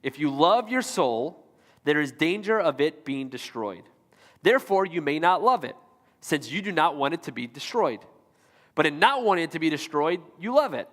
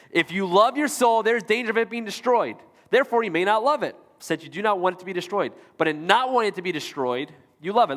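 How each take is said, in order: First: Slow, careful quote reading for a confused audience. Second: Brisk, emphatic rereading of the quote; quicker reread. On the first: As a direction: read slowly, pausing between phrases. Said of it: "I'm gonna read it slow". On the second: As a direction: read it through quickly, pitched up at the start. Repeats the confusing quote faster. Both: Real, not acted.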